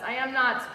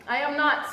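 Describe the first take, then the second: No difference in how they are said.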